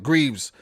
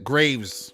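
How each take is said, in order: First: The vowel sounds like the one in 'sleeves'. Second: The vowel sounds like the one in 'waves'. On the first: This is the usual way to say the name. "Or Greaves, if you want to pronounce it" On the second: This is how people in Saint Vincent say it. "In Saint Vincent, we pronounce it Graves"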